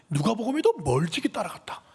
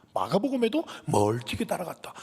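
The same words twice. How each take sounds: First: 누가복음에도 lifted higher and pushed harder; emphatic. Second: Said in the usual way. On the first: Shown as a demonstration. Preacher stacks gospel proof, emphatic. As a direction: drive the point home on 누가복음에도. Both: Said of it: "분명하게 기록하고 있어요".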